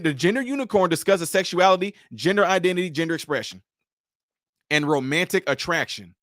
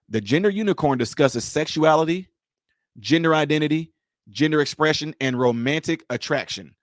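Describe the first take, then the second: First: It is said in her ordinary voice. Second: It is said in a low radio voice.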